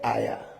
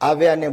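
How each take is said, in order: First: The word is said without the 'v' sound. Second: The word is said with a 'v' sound.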